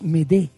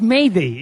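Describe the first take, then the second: First: It is said like the French m'aider. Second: It is said like the English word mayday. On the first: The speaker calls it right. "es m'aider" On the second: The speaker calls it wrong. "no es mayday"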